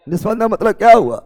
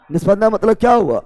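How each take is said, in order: Both takes have the same delivery.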